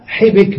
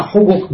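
First: "حبك" said ḥibik, short i in both syllables; two kasras. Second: "حبك" said ḥubuk, short u in both syllables; two dammas. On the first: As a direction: say "حبك" with i after ح and ب. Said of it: "وسمع حبك بكسرتين". (نطق "حبك" بكسر الحاء والباء) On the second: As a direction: say "حبك" with u after ح and ب. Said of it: "سمع حبك بضمتين". (نطق "حبك" بضم الحاء والباء) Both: Shown as a demonstration.

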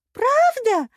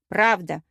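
First: A high, loud, beaming «Правда?». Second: Reassuring. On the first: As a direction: burst out with joy. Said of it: "просияла дурнушка". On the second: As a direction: promise it steadily. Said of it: "заверила я". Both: A narrator's reading.

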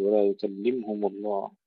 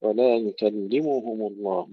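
First: يكلمهم with the م vowelless; wrong silent mim. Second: يكلمهم with a clear damma on the م; full damma on mim. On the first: Teacher shows the error to avoid. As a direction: drop the damma on م as a mistake. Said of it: "لا نقول". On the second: Teacher models the correct form. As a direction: voice the damma fully. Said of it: "ننتبه إلى تحقيقها". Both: Shown as a demonstration.

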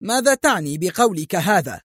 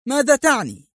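First: Indignant angry outburst, higher; police chief insulted, angrily demanding; angry shout. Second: Much higher furious cry, ماذا hit hard; the anger boils over into a high yell; insulted man repeating his question in a high furious yell; shrieking angry shout. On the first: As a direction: demand an answer in anger. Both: A narrator's reading. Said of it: "صائحا في غضب".

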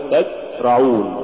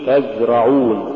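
First: تزرعون with the ز choked short; cut-off zay. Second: Said in the usual way. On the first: Shown as a demonstration. Teacher showing students what not to say, cut-off ز in تزرعون. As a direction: say تزرعون, stopping the flow of the ز. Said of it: "في تحقيق رخاوة الحرف". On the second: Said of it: "قل تزرعون".

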